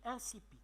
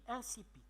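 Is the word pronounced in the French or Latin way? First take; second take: French; French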